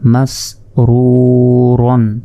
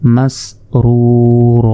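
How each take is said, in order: First: The word ends with a final n sound. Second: The word ends in a long vowel without n. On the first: Reading continues past this word. "র দুই জবর রন" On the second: Reading stops on this word. "যদি আমরা ওয়াকফ করি"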